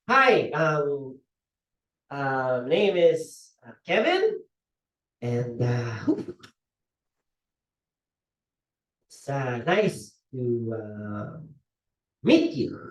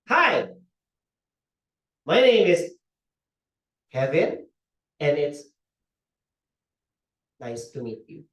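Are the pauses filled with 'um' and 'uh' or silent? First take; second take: filled; silent. First: The pauses are filled with um and uh. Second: The pauses are silent, with no fillers. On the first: The speaker calls it wrong. "Instead of doing that" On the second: The speaker calls it right. "we can pause"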